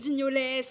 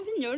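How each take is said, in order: First: The name ends with a pronounced S sound. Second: The name ends without any S sound. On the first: This is how most people say it. The speaker calls it wrong. "tout le monde dit vignolès" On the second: This is how the name is really said. The speaker calls it right. "on dit, tu vois. Non, vignol, simple"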